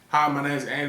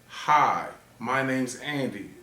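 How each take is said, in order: First: It is said at a fast pace. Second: It is said at a slow pace. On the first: "I'm gonna say it fast" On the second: "I'm gonna say it slow"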